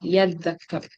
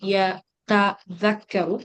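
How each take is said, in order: First: The t merges into the following consonant. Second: The t sound is pronounced separately.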